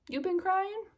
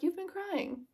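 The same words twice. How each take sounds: First: High-pitched "You've been crying?" rising at the end; questioning imitation. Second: High, softer "You've been crying." falling at the end; insisting imitation. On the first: He looks at her face, high questioning imitation. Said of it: "he's like". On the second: He doesn't believe her "No", insisting imitation. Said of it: "And he was like".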